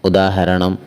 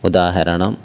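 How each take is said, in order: Both takes have the same delivery.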